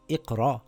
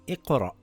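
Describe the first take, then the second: First: The final hamza is not cut short. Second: The word ends with a clipped glottal catch. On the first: The speaker calls it wrong. "So it's not iqra" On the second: The speaker calls it right. "You have to pronounce the hamza with a sukoon. It's like a half an a sound"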